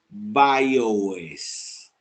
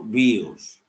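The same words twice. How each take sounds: First: It is pronounced with English sounds. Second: It is pronounced with Spanish sounds. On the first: "Si lo leemos en anzuelés" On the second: "si lo leemos en castellanito"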